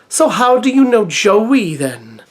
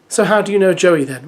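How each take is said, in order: First: It is read in a Welsh accent. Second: It is read without a Welsh accent.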